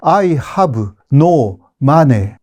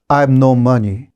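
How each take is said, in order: First: It is said with a Japanese accent. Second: It is said with an English-like accent. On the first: The speaker calls it wrong. "일본 사람들은 I have no money 그럼 무슨 말인지 몰라요" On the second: The speaker calls it right. "I have no money 이렇게 하면 되잖아요"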